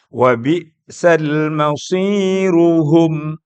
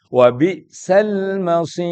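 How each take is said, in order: First: The phrase continues with a thick, heavy r. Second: The phrase stops with a thin, light r. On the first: "Jadi berubah menjadi tebal" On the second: "Tipis kalau berhenti"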